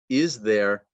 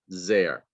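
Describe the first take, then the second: First: The word 'is' is fully pronounced. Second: The word 'is' is reduced almost away. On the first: "the full form" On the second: "the reduced form"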